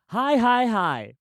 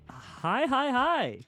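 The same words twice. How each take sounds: First: It is said with high energy. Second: It is said with low energy.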